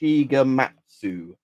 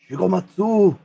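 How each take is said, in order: First: The name is said in his normal accent. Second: The name is said in an exaggerated put-on accent. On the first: "I'll have to not do the racist voice" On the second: "I can't help myself"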